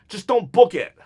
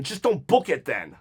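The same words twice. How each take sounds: First: Louder, with stress on "book"; emphatic repeat. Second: Said in the usual way. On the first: Real, not acted. Fed-up fan telling the bookers, pressing on "book". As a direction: lean on "book" and say "Just don't book it" firmly. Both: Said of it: "repeats it with more force".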